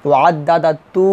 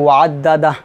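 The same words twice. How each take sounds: First: ওয়াদ্দাদা তু with "tu" sounded and held; ending as tu. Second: ওয়াদ্দাদা closed on a vowelless "h"; stopped ending. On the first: Teacher showing round ta without a stop, tu ending. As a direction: draw out তু at the end, no stop. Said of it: "ওয়াকফ না ধরলে". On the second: Teacher showing the stop at waqf, vowelless ending. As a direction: cut the final hu of ওয়াদ্দাদা to bare h. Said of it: "যদি ওয়াকফ ধরি". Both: Shown as a demonstration.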